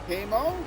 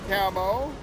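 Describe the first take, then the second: The two takes are said the same way.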